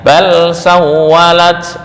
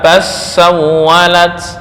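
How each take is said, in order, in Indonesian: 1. Huruf l dilafalkan dengan jelas sebelum s. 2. Huruf l melebur menjadi bunyi s yang ganda.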